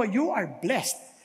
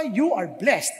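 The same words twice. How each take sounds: First: Slow, drawn-out declaration for the congregation to echo; slow blessing to repeat. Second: Said in the usual way. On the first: Shown as a demonstration. Preacher slowly models the line for the congregation to repeat. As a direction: spell it out slowly so they can repeat it. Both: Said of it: "Pakisabi sa katabi mo".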